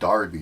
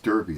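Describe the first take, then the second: First: The first vowel sounds like the one in 'car'. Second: The first vowel sounds like the one in 'her'. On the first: The speaker calls it wrong. "it's not uh, Darby" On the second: The speaker calls it right. "it's Derby. It's D E R B Y"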